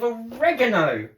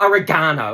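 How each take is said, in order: First: It is said in a non-Australian way. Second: It is said the Australian way.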